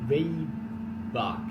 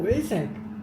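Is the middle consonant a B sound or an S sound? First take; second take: B sound; S sound. First: The middle consonant is a B sound. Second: The middle consonant is an S sound. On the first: The speaker calls it wrong. "If I'm pronouncing this wrong or right" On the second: The speaker calls it right. "the B is spoken as S. So it's like Waysack"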